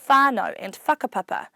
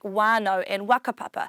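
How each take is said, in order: First: It is said in the usual standard way. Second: It is said in a local regional dialect. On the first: "it's normally said as" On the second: "that's just my local dialect from Whanganui"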